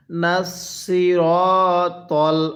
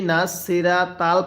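First: Slow নাসিরাতাল with rounded, heavy "raw" and "tawl"; correct recitation. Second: নাসিরা তাল with thin "raa" and "taal"; quicker, unrounded vowels in নাসিরা তাল; wrong pronunciation. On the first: Teacher has learners read along, slow heavy-consonant নাসিরাতাল. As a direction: draw out নাসিরাতাল, full-mouthed R and T. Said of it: "এরপরে পড়ুন". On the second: Teacher imitates learners' mistake, thin-vowelled নাসিরা তাল. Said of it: "যদি এরকমভাবে পড়েন তাহলে পড়াটা সহি শুদ্ধ হবে না". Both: Shown as a demonstration.

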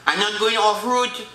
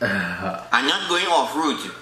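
First: Said in the usual way. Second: "I'm not going off route" said low and slow, each word weighed; slow stern refusal. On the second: Acted. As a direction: lay down the rule slowly and low. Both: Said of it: "repeated takes".

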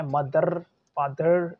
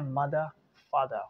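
First: Loud "मदर", "फादर" with trilled final R; exaggerated rolled R in "मदर", "फादर". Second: "मदर", "फादर" as MA-duh, FAA-duh; schwa ending. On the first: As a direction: buzz the endings of "मदर" and "फादर". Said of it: "रा जो है आपको remove करना है". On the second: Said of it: "इसकी जगह आपको लगाना है". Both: Shown as a demonstration.

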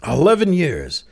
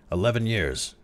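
First: A high, loud incredulous echo; can't believe the number; unbelieving. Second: Said in the usual way. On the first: A narrator's reading. To Crowley, the president echoes him in loud disbelief. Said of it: "The president was unbelieving".

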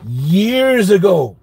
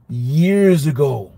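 First: Slow emphasis. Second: Slow. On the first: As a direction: linger on years ago, lifting it. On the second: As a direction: stretch years ago out slowly. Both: Shown as a demonstration.

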